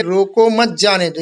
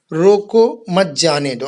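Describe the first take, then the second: First: Group it as रोको मत, then जाने दो; pause after मत. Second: Slow रोको, a break, then मत जाने दो; pause after रोको. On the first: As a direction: stress मत, then जाने दो apart. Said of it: "जाने दो की बात हो रही है". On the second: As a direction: stop on रोको, then run मत जाने दो together. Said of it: "न जाने दो की बात हो रही है". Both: Shown as a demonstration.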